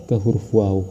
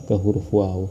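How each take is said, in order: The two takes are said the same way.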